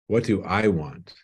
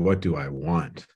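First: The stress falls on the word 'I'. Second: The stress falls on the word 'want'.

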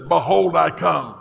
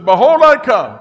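First: It is said at normal loudness. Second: It is said a little louder.

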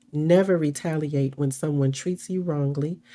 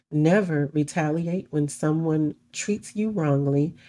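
Both takes have the same delivery.

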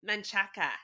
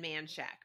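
First: The name is said as three syllables. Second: The name is said as two syllables. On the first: The speaker calls it right. "Manchaca is how you say it" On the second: The speaker calls it wrong. "my tantrum is Kevin and Man Shack"

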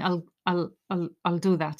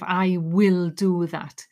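First: The word will is contracted to I'll. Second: The word will is said in full. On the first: "You're practicing, I'll do that" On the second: "instead of I will do that"

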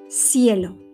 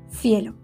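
First: The c sounds like an s. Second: The c sounds like the th in think. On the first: "la pronunciación de la C y la S es igual" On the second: "se pronuncian en Madrid y en muchas partes de España como la TH de think"

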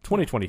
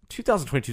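First: The year is read as twenty twenty-two. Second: The year is read as two thousand twenty-two. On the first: The speaker calls it right. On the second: The speaker calls it wrong.

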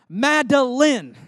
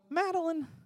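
First: The name is said sternly, every syllable pronounced. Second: The name is said in a puzzled, exasperated way. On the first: She is in trouble. "use all the syllables of her name" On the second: She did something silly. "she'll do something silly, and I'll go"

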